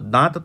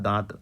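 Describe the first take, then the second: First: The nasal is pronounced with force, like a full n. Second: The nasal is pronounced softly through the nose. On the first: The speaker calls it wrong. "दांत तो नहीं कहा है" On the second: The speaker calls it right. "यहाँ पे बोला जा रहा है दांत"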